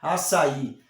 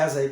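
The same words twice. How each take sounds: First: The middle consonant sounds like a double s. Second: The middle consonant sounds like a single s. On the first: The speaker calls it right. "como se fosse dois S" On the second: The speaker calls it wrong. "se fosse um S só ia ser açaí. Não é açaí"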